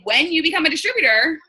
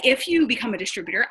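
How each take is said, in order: First: "When" lifted and pushed, sure of it; bright confident "When", not "If"; stress on When. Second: Said in the usual way. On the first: Shown as a demonstration. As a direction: lean hard into "When" as a certainty. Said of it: "I say". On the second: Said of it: "I don't say".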